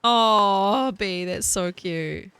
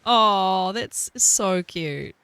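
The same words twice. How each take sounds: First: Slow, stretched-out coo with a southern lilt; cooing southern drawl. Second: Very slow, louder southern coo on so; southern drawl. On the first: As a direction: drawl it out sweetly. Cooing over chat. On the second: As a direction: savour the southern vowels. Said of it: "it just feels really nice to speak southern". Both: Pretend.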